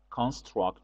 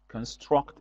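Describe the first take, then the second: First: The stress is on the first syllable. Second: The stress is on the second syllable. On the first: It is used as a noun. "Construct is a noun" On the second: It is used as a verb. "Construct is the verb"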